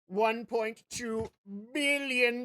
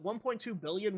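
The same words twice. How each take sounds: First: It is said in a put-on villain voice. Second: It is said in the speaker's ordinary voice.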